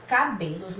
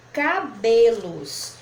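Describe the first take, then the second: First: Said in the usual way. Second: "cabelos" stretched slowly, syllable by syllable. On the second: Shown as a demonstration. Teacher showing how the word divides, "cabelos" slowly syllable by syllable. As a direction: draw out each syllable of "cabelos". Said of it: "fazendo a separação da palavra".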